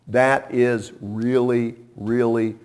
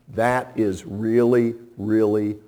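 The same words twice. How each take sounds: The two takes are said the same way.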